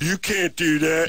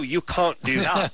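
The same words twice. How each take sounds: First: It is said in a dopey, dim-witted voice. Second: It is said in a polished, educated voice. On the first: The doubter seems foolish. "voice that we always do with the dumb naysayer guy" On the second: The doubter seems knowledgeable. "We should make him sound smart"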